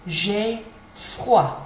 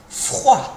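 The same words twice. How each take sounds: First: "J'ai froid" with a rattling throat R; French R. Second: "froid" with a rattling R in the throat; throaty French R. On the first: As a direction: roll the R at the back of the throat in "froid". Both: Shown as a demonstration. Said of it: "little rattle in the back of your throat".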